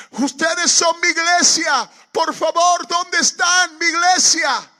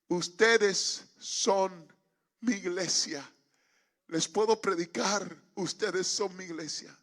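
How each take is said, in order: First: High, drawn-out pleading shout; desperate calling. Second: Slow, broken-up plea after the shouting; halting appeal. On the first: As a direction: cry out for a missing congregation at full volume. Retold desperate calling in the field. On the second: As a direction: ask it in separated phrases, no longer yelling. Within earshot, no longer shouting. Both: Retold or imitated.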